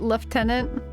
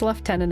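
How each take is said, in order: First: The first syllable sounds like 'loo'. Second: The first syllable sounds like 'left'. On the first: "American English pronunciation" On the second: "everywhere else"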